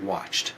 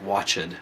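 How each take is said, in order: First: The final -ed sound is soft and light. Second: The final -ed sound is strong and heavy. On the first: The speaker calls it right. "Like watched. So it's a softer D sound" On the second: The speaker calls it wrong. "instead of like watched"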